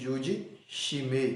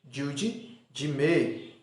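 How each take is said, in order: First: The second word starts with an sh sound. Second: The second word starts with a j sound. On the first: The speaker calls it wrong. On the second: The speaker calls it right.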